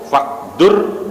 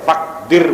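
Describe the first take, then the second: First: The vowel after the d is u. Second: The vowel after the d is i. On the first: "boleh dibaca dhammah" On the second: "boleh dibaca kasrah"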